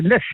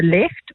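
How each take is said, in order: First: "lift" said with a short i, as in "sit"; "left" misheard as "lift". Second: "left" said with an open e, as in "bed"; clear "left" vowel. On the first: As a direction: quote a puzzled auctioneer questioning the word "lift". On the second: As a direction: quote a puzzled auctioneer carefully saying "left". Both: Retold or imitated. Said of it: "maybe it's my accent".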